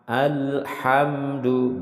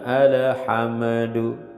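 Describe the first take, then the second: First: The word is said smoothly without a bounce. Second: The word has a bounce on al or ham. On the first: The speaker calls it right. "tidak boleh ada pantulan di al maupun ham" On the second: The speaker calls it wrong. "bukan alhamdu"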